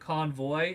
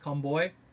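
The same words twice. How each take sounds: First: The middle consonant is a V sound. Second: The middle consonant is a B sound. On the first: The speaker calls it wrong. "it's actually not convoy" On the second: The speaker calls it right. "they don't have V's, they have B's"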